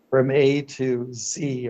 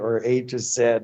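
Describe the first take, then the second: First: The letter Z is not said the Canadian way. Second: The letter Z is said the Canadian way.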